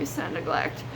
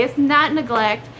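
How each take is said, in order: First: Whispered repeat. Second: Said in the usual way. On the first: Real, not acted. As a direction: whisper "It's not neglect." much lower and softer.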